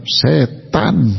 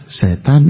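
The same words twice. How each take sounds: First: Emphatic East Javanese, both syllables drawn out; weighty, deliberate East Java pronunciation; firm East Javanese accent. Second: Gentle Tasik Sundanese, lightly rising; soft Sundanese accent. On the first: Preacher showing how East Javanese say setan, firm and emphatic. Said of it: "orang Jawa Timur ngomongnya mantep". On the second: Preacher mimicking Sundanese from Tasik, soft and polite. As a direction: say it smoothly like a refined Sundanese speaker. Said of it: "ih, halus banget". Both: Shown as a demonstration.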